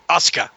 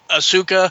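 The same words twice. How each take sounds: First: The U sound is light and barely emphasized. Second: The U sound is given clear emphasis. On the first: "The Japanese don't put a hard emphasis on the U. They just go Asuka" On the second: "I would pronounce it Asuka"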